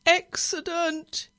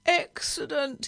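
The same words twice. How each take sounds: First: Slow, high, loud groan of dread. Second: Drawn-out high moan. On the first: Nervous driver starting the engine without his feather, groaning. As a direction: draw the word out in a loud groan. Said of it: "he groaned as he started the engine". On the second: Nervous driver fretting all the way down the road, moaning. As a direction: moan it slowly, less forceful than a cry. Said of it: "he moaned all the way down the road". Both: A narrator's reading.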